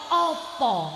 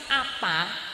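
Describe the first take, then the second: First: It is said with Surabaya o vowels. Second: It is said with Ngapak open a vowels.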